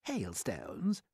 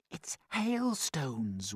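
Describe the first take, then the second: First: Dismissive questioning echo; sceptical centipede. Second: Hushed, drawn-out discovery; excited whisper. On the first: Centipede doubting James about hailstones, sceptical. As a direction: repeat it in disbelief, rising at the end. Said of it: "the centipede said". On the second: James realising what the marbles are, excited stage whisper. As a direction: stretch the word in amazed excitement. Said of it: "whispered James excitedly". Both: A narrator's reading.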